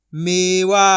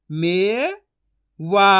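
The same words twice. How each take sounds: First: Said in the usual way. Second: मे rising long, pause, वा; syllable by syllable. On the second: Shown as a demonstration. Teacher sounding out for learners, syllable by syllable. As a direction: split मेवा into two drawn-out sounds. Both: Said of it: "एक एक अक्षर का उच्चारण".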